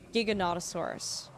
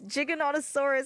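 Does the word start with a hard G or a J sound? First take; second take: hard G; J sound. First: The word begins with a hard G sound. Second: The word begins with a J sound. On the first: The speaker calls it wrong. "For the longest time, I said Giganotosaurus. And it's not" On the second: The speaker calls it right. "It's- it's Jig. It's like- it's like GIF"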